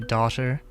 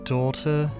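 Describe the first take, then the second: First: It is said the way Americans say it. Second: It is said in a British accent. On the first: The speaker calls it wrong. "American actors usually say" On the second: The speaker calls it right. "in an English accent, I think it's supposed to be"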